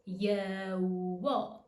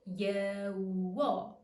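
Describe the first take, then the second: The two takes are said the same way.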